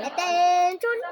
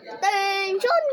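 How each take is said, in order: First: Loud drill shout, rising; military command. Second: Loud barked drill command; military command. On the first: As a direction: bark it like a drill sergeant. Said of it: "Sabi ko". (sigaw na parang sundalo) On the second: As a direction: call the troops to attention. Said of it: "Sabi ko, "Attention!". (malakas na utos ng sundalo) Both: Shown as a demonstration.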